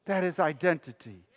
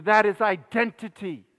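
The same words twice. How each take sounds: First: Lower, softer echo of the point; hushed repeat. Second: Said in the usual way. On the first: Real, not acted. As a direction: let it sink in quietly.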